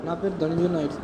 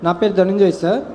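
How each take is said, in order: First: Softer, timid, barely heard; saying his name shyly under his breath; too quiet. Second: Speaking up. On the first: (చాలా మెల్లగా, సిగ్గుతో) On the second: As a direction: still shy but clearer now. (కొంచెం గట్టిగా, ధైర్యంగా) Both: Real, not acted. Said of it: "గట్టిగా, గట్టిగా మాట్లాడు".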